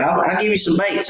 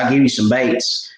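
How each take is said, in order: First: Higher, eager coaxing; coaxing offer. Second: Said in the usual way. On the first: Retold or imitated. Man urging a timid boy to take baits, high and eager. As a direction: coax the shy boy into taking them.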